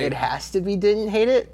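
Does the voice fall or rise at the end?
rises. The voice rises at the end, like a question. The rating is put as a question to others.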